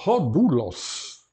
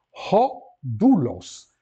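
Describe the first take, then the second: First: "Rodulos" very slow, stressed long U; drawn-out model word for students; Greek accent demo. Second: "Rodulos" very slow, long U held; Greek accent demo. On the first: (pronúncia lenta com acento circunflexo) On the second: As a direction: stretch out the long U. (pronúncia muito lenta, U longo) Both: Shown as a demonstration. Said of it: "Reparem, aqui o acento é esse conflexo".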